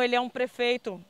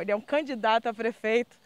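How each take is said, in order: First: Said in the usual way. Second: Candidato leaned on to correct prefeito; correcting herself by stressing candidato. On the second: Real, not acted. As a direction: land on candidato as the fix. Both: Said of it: "prefeito não".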